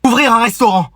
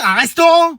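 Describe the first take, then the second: First: Said in the usual way. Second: RESTAURANT pitched high as a question; incredulous echo. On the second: Acted. Adult echoing student's plan, incredulous high "restaurant". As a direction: throw "restaurant" back in high disbelief. Echoes ambition in disbelief.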